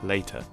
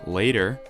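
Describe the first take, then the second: First: The middle T is a clear, full T. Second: The middle T is a quick American flap.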